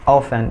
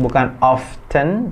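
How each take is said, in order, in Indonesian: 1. Bunyi t-nya diam. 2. Bunyi t-nya diucapkan. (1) "often itu T-nya nggak dibaca"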